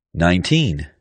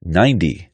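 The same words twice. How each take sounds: First: Put-on "Nineteen" with a crisp T and long "teen"; teen ending. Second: "Ninety" stressed up front, ending in short "dee". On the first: Pronunciation teacher contrasting numbers, "Nineteen" with clear long "teen". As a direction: say "Nineteen" with a full second syllable. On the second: Pronunciation teacher contrasting numbers, "Ninety" with light "dee" ending. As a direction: say "Ninety" with a weak last syllable. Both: Shown as a demonstration.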